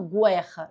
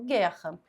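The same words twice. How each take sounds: First: The u after the g is pronounced. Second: The u after the g is silent. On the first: The speaker calls it wrong. "porque eu não falo guerra" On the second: The speaker calls it right. "eu falo guerra"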